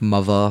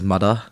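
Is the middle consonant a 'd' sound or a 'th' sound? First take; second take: th; d. First: The middle consonant is a soft th sound. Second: The middle consonant is a hard d sound. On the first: The speaker calls it right. "I used to think mother was pronounced as" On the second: The speaker calls it wrong. "I used to think mother was pronounced as mudder"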